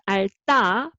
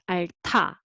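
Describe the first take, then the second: First: The consonant after the l is plain, unaspirated. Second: The consonant after the l is aspirated. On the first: The speaker calls it wrong. "not 알다" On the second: The speaker calls it right. "make aspirated"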